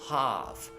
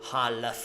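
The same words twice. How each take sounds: First: The word is said without any L sound. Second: The word is said with an L sound. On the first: The speaker calls it right. "the right pronunciation is half, just half" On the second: The speaker calls it wrong. "don't say never, never, ever, half"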